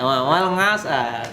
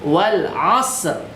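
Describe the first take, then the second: First: The second word starts with an 'ng' sound. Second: The second word starts with a throat sound. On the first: The speaker calls it wrong. "Apalagi nga" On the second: The speaker calls it right. "ain ya, bukan a"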